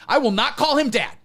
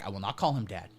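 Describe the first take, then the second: First: Higher and louder, "I" punched hard; emphatic. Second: Low and softer, almost under breath; muttered. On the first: Host refusing to call him Dad, loud declaration. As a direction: declare it defiantly. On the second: Host refusing to call him Dad, low mutter. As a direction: mutter it to yourself. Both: Shown as a demonstration.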